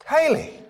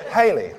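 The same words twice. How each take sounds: First: A loving high Haley; tender high call of her name. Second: Said in the usual way. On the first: Shown as a demonstration. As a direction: sing Haley upward like a fond call. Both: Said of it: "Give you an example".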